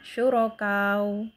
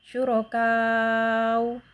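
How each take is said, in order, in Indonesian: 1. Vokal terakhir ditahan sebentar. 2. Vokal terakhir ditahan agak panjang.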